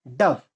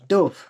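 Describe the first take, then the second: First: "dove" with a short U, as in "love"; bird pronunciation. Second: "dove" with a long O, as in "stove"; verb pronunciation. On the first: Teacher shows the homograph's bird sound, "dove" with short U. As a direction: say "dove" to rhyme with "glove". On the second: Teacher shows the homograph's verb sound, "dove" with long O. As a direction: say "dove" to rhyme with "rove". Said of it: "थोड़ा सा differ होता है". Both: Shown as a demonstration.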